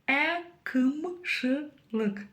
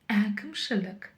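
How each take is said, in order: First: The vowels are hard, like Russian 'ы'. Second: The vowels are between hard and soft. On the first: The speaker calls it wrong. "Пробуем прочитать через «ы». Твердовато и неудобно" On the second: The speaker calls it right. "А вот палочка с точкой именно та мягкость, которая нам необходима"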